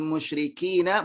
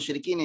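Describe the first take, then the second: First: The word ends with a final a vowel. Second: The word ends on the n sound. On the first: The speaker calls it right. "iqabul musyrikina bukan musyrikin ya" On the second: The speaker calls it wrong. "bukan musyrikin"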